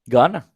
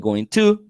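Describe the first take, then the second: First: The words are reduced and run together. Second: Both words are said fully and separately. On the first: "they just said gonna" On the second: "native speakers do not say going to"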